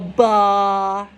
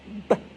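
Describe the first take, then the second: First: The sound has an extra vowel after it. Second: The sound is clipped short with no vowel. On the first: The speaker calls it wrong. "try not to go ba" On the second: The speaker calls it right. "It's short"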